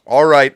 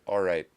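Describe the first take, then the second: First: Louder, punched all right; sudden loud all right. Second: Softer, resigned all right; plain resigned all right; calm concession. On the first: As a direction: bark it out suddenly. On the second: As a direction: settle it down quietly. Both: Real, not acted. Calming down, then exploding.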